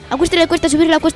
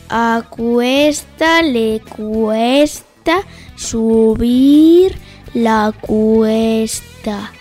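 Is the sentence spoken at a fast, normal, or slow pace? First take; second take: fast; slow. First: It is spoken at a fast pace. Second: It is spoken at a slow pace. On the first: "A velocidad rápida" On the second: "Cámara lenta o velocidad lenta"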